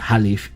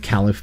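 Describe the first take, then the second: First: The word begins with an H sound. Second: The word begins with a K sound. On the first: The speaker calls it right. "it would be Halif if you use actually pronounce it correctly" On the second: The speaker calls it wrong. "I've been saying the Caliph"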